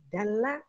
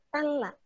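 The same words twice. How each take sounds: First: Dalla with a voiced d, double l; Arabic word dalla. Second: Talla with an unvoiced t, double l; Arabic word talla. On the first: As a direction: say Dalla starting with d. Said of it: "Yang satu pakai dal". (Dalla dengan bunyi d) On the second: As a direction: say talla starting with t. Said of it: "yang satu pakai ta". (talla dengan bunyi t) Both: Shown as a demonstration.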